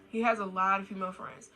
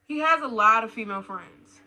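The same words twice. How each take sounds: First: Said in the usual way. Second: Loud, punchy headline delivery; emphatic announcement. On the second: Real, not acted. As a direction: announce it loudly as a warning. Announces next red flag.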